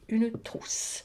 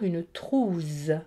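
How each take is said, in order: First: The middle consonant is a hissing s sound. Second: The middle consonant is a buzzing z sound. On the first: The speaker calls it right. "Pour que ce S se prononce S, il faut le doubler" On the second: The speaker calls it wrong. "sinon nous aurions dû lire une trousse, car le U et le E sont deux voyelles"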